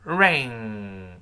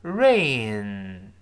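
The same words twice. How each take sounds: First: Lower-pitched, drawn-out "ring", throat closed on ng; slow model "ring" ending in a long ng; velar ng ending. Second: Drawn-out "rain" ending on n, tongue root down; slow model "rain", no g colour; front n ending. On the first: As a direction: hold "ring" on a back-of-tongue nasal. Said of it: "我们把喉咙堵死啊". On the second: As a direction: hold "rain" on a front nasal, throat open. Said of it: "下雨". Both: Shown as a demonstration.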